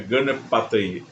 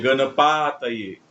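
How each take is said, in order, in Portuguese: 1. A vogal a é curta. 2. A vogal a é longa. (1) "porque é o A breve, então é gana pataye" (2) "Não é gana pataye"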